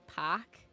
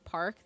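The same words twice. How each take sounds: First: The word is said in a New England accent. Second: The word is said in a plain, neutral accent. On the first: "they say park" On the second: "Instead of saying park"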